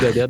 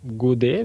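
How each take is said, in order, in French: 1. Le nom se termine par un t bien prononcé. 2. Le nom se termine par une voyelle, pas de t final. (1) "mais on dit Godette dans ma famille" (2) "ça s'écrit go, Godet"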